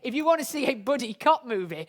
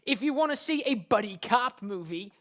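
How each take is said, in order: First: It is said in the speaker's usual accent. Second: It is said in an American accent.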